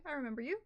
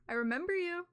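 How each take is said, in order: First: Said in the usual way. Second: Raised, louder creepy delivery. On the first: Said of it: "didn't mean it to sound terrifying". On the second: Shown as a demonstration. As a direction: say it like a looming threat. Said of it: "Sounds terrifying".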